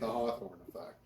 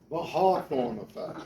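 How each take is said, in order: First: It is said in a non-British accent. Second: It is said in a British accent. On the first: "Me, I say it the Hawthorne effect" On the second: "That's how you say it if you're a Brit"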